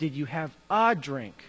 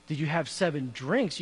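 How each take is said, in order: First: "a" singled out, said as a full vowel; retold quibble, weight on "a"; stress on A. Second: "seven drinks" as the question never asked; retold question with "seven" as the contrast. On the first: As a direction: hit the word "a" before "drink". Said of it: "You said". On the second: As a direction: quote it lightly, leaning on "seven". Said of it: "Well, you never said".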